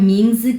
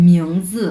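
First: "মিংজি" with a plain "ming", no glide; spelling pronunciation. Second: "মিংজি" with the first syllable said like "miong"; miong pronunciation. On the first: Teacher warns learners off this, "মিংজি" said as plain "ming-zi". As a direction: say "মিংজি" as spelt, straight "ming-zi". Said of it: "কেউ বলবেন না". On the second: Teacher models actual pronunciation, "মিংজি" said as "miong-zi". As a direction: glide through "মিং" as "মিয়ং" in "মিংজি". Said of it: "উচ্চারণ হবে মিয়ং". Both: Shown as a demonstration.

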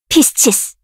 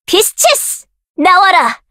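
First: Said in the usual way. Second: Much higher pitch, rising at the end; high shouted spell call. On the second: Acted. Caster shouting the spell high with a rising end. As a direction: fling the name up high. Spell name called in battle.

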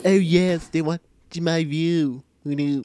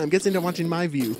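First: Loud, drawn-out cartoon voice; Stewie Griffin. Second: Said in the usual way. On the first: Gamer gloating over spectators, put-on cartoon voice. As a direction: open big, then stretch it slowly. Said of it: "enough with the Stewie impression for once". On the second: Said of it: "enough with the Stewie impression".

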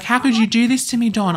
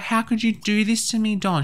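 First: Higher and louder, pleading wail; a wife crying out at her cheating husband; high loud heartbroken plea. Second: High, hurt plea to Don; high wounded question. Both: Acted. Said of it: "She's gonna be like".

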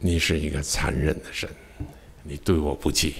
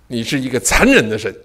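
First: Quiet reflective. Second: Mock anguished accusation. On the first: Shown as a demonstration. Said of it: "repeated softly in reflection". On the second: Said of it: "我一直大喊".

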